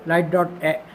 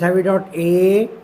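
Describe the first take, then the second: First: Quick clipped-off ए; light dot ए, ए said brief and quick; short light ए. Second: Slow, stretched ए with a rise; heavy dot ए, ए held long; long heavy ए. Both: Shown as a demonstration. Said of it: "इसको हम जाहिर करते हैं light से".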